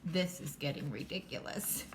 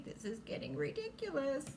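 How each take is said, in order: First: Lightly voiced low cat; low, unimpressed cat remark; a hint of a fed-up cat; story cat. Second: Higher, lightly voiced complaint; mock grumble, pitched up; a hint of a fed-up pet; imagined Nikki. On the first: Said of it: "And the cat says". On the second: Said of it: "Nikki probably thinks that way".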